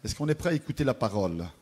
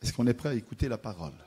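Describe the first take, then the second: No difference in how they are said.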